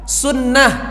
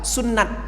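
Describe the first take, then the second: First: The word ends with an h sound. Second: The word ends with a t sound. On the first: The speaker calls it right. "kalau kita berhenti wakaf diganti jadi ha" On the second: The speaker calls it wrong.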